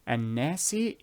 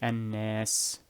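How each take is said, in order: First: The word ends with an added short i vowel. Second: The word ends on the s consonant. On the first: The reading continues into the next verse without stopping. "if you will uh, segue from the second verse to the third verse immediately" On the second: The reader stops at the end of the verse. "If you will stop, you say annas"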